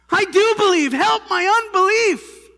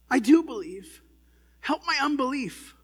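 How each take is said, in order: First: It is said loudly. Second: It is said quietly.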